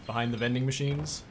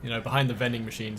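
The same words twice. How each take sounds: First: Machines stressed with a rising question; knowing question. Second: Behind stressed, fast knowing aside. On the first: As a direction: ask it slyly, hitting machines. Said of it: "Thought so". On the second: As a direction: lean on behind with a wink. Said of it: "That's where the kids do their drugs". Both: Shown as a demonstration.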